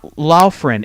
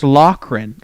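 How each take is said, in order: First: The middle consonant sounds like an f. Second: The middle consonant sounds like a k. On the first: The speaker calls it wrong. "It's not Laufren" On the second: The speaker calls it right. "It's Lochran"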